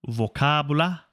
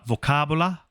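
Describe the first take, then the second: The two takes are said the same way.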